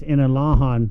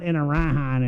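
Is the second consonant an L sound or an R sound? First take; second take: L; R. First: The second consonant is an L sound. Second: The second consonant is an R sound. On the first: The speaker calls it right. "it's Inalahan" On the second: The speaker calls it wrong. "It's not Inarahan"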